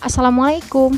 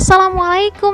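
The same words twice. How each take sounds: First: The greeting is said flat, with no energy. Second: The greeting is said lively, with varied pitch. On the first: The students will not listen. The speaker calls it wrong. "flat, datar" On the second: The students will pay attention. The speaker calls it right. "itu akan berbeda"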